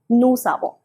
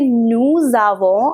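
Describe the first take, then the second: First: The words are linked with an S sound. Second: The words are linked with a Z sound. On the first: The speaker calls it wrong. "instead of saying nous savons" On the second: The speaker calls it right. "a Z sound"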